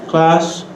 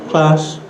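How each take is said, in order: No difference in how they are said.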